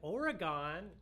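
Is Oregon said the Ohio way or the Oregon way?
Ohio. It is said the way Ohio locals say it. "everyone in Ohio said it that way"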